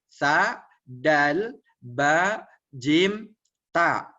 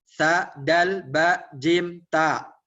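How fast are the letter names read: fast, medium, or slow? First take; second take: slow; medium. First: The letters are read slowly, one by one. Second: The letters are read at a quicker pace. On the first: "Mulai dari pelan dulu. Pelan dulu" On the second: "Setelah uh, nampak lancar, tingkatkan kecepatannya"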